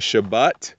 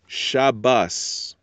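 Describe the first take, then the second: First: The word ends with a t sound. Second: The word ends with an s sound. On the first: "instead of saying Shabbat" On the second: "You can turn those into a S sound"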